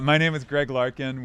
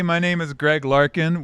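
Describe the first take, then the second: First: It is said softly, at normal volume. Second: It is said loudly, almost shouted.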